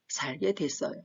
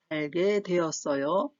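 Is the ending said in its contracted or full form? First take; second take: contracted; full. First: The ending is shortened to a single syllable dwaet. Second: The ending is said in full as doe-eot-eoyo.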